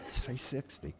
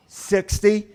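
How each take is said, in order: First: Soft aside, feeding an answer; quiet prompting. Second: High, loud tentative answer; hammed-up unsure question; questioning guess. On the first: Acted. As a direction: suggest it discreetly to a friend. Low suggestion to driver. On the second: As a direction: try the guess out in a raised voice. Friend relays guess to cop.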